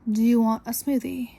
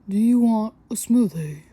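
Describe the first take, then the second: First: It is said in her normal voice. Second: It is said in a put-on voice.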